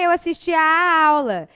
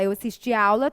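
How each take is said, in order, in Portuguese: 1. O som do 'a' antes de 'aula' é duplo. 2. O som do 'a' antes de 'aula' é simples. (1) "A gente dá uma repetida nesse A" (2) "não precisa haver essa pronúncia de dois As"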